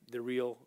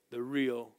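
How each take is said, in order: Both takes have the same delivery.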